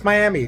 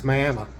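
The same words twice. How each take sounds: First: Miami is said the usual Florida way. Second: Miami is said the local Oklahoma way. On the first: The speaker calls it wrong. "you're going to look at it in the video and say, that's Miami" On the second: The speaker calls it right. "No, it's Miami... that is how they pronounce it here. It's not like Florida"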